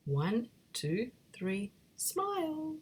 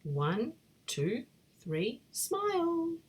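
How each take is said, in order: First: Slow count with a high sung-out smile; drawn-out photo countdown. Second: Photo countdown. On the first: Big Ted coaxing friends for the photo, slow and high. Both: Acted.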